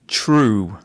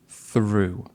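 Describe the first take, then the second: First: The word begins with a plain t sound. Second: The word begins with a soft th sound. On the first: The speaker calls it wrong. "This is common for people from Malaysia or from Singapore to say true" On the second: The speaker calls it right. "I think she wanted to say through"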